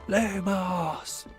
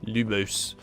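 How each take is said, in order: First: It is said with great enthusiasm. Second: It is said flatly, without conviction.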